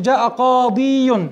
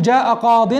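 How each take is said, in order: First: جاء قاضي, drawn out slowly with the final ي sounded as a long ee; underlying form. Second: جاء قاض, with قاض ending in a clipped nunation, no ي sound; correct form. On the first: Teacher to students showing the underlying form, slow and drawn out. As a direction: stretch قاضي to show the original ي ending. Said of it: "هذا الأصل". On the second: Teacher giving students the correct spoken form, clipped ending. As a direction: cut قاض short after the ض. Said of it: "فالحذف إذن هنا للياء". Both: Shown as a demonstration.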